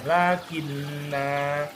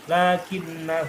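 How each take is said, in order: First: The final vowel is drawn out long. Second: The final vowel is short, running on. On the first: The reader stops after this word. "maka hamzahnya atau alifnya dibaca untuk memanjangkan kata sebelumnya" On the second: The reader continues into the next word. "ketika wasol, huruf alifnya hilang"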